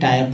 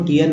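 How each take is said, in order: First: The vowel sounds like 'eye', as in tyre. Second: The vowel sounds like 'ee', as in teer. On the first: The speaker calls it right. "टायर पढ़ते हैं लोग" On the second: The speaker calls it wrong. "टीयर नहीं"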